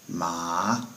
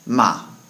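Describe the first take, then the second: First: The pitch rises through the syllable. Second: The pitch falls sharply and forcefully. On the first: It means hemp. "is pronounced with a rising tone" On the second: It means to yell at or curse someone. "said somewhat forcefully with a down tone"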